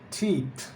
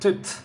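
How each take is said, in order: First: The vowel is long. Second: The vowel is short. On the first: The speaker calls it right. "Watch out for the long E" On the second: The speaker calls it wrong. "not tit"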